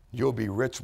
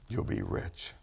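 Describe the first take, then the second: First: Said in the usual way. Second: Much lower, almost under the breath; dropped low. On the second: Real, not acted. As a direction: let "you'll be rich" sink down low and intimate. Repeated promise, dropped low.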